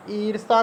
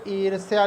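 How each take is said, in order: First: ईर्षा said as iirsha, with no y sound; ईर्षा read out as the incorrect form; wrong spelling said. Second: ईर्ष्या said as iirsh-ya, with a clear y glide; ईर्ष्या said carefully as the correct form. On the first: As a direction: say ईर्षा as a plain iir-sha. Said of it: "ईर्षा नहीं होता है". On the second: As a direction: sound the ya in ईर्ष्या. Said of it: "ईर्ष्या लिखा जाता है सही प्रकार से". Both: Shown as a demonstration.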